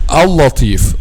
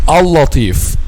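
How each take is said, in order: No difference in how they are said.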